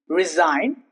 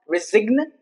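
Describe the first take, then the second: First: The G is silent. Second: The G is pronounced. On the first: The speaker calls it right. "the G is obviously silent all the time" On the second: The speaker calls it wrong. "it's not resign"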